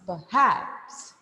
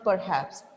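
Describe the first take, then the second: First: The stress is on the second syllable. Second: The stress is on the first syllable. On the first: The speaker calls it right. "you should pitch at this part. Hats" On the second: The speaker calls it wrong. "It is not perhaps"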